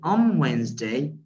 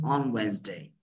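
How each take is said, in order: First: The n of on becomes an m sound. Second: The n of on stays a clear n sound. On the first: "in everyday fluent speech" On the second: "instead of saying"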